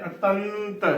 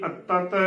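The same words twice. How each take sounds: First: ਅਤੰਤ with a full nasal held before the last t; correct pronunciation. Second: ਅਤਤ short, with the nasal weakened or lost; wrong pronunciation. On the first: Teacher models the word for learners, correct pronunciation. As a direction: let the nasal ring in ਅਤੰਤ, a-tant. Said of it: "ਅਤੰਤ ਉਚਾਰਨ ਕਰਨਾ ਹੈ". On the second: Teacher shows what not to say, wrong pronunciation. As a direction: drop the held nasal in ਅਤਤ. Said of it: "ਨਾ ਕਿ". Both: Shown as a demonstration.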